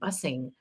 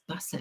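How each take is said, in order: First: The word ends with a full -ing sound. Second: The word ends in -in without the G. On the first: It sounds overly proper. The speaker calls it wrong. "I guess I was saying it wrong because I kept saying busing" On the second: It sounds like natural kid slang. The speaker calls it right. "you try to take off the G"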